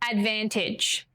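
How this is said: It is said smoothly as one word.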